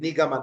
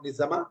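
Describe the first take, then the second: First: The middle consonant is a hard g sound. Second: The middle consonant is a z sound. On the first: The speaker calls it right. "Nigama, not Nizama" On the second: The speaker calls it wrong. "not Nizama"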